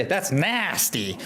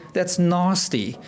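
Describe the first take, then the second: First: Slow American "nasty" with a flat a as in cat; American accent, slowed and drawn out. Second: "nasty" with a long open ah, South African style; South African accent on "nasty", slow. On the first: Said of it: "But American will say". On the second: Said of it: "in South Africa, we will say". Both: Shown as a demonstration.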